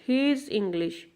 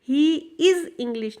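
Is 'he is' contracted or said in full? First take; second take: contracted; full. First: He is is contracted into one weak syllable. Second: He and is are said as two full words. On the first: "हम contraction word में इकट्ठा ही बोल देते हैं" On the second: "नहीं"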